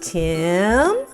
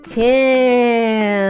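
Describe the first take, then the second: First: It is said more quickly, less stretched. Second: It is stretched out long and slow.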